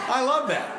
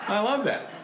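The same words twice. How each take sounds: The two takes are said the same way.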